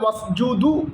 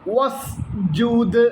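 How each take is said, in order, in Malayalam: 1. ഈ വാക്ക് ചേർത്ത u സ്വരാക്ഷരത്തിലാണ് അവസാനിക്കുന്നത്. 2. ഈ വാക്ക് ശുദ്ധമായ d വ്യഞ്ജനത്തിലാണ് അവസാനിക്കുന്നത്. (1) "എന്നുച്ചരിക്കരുത്" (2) "ദാലിന് സുക്കൂനാണ്"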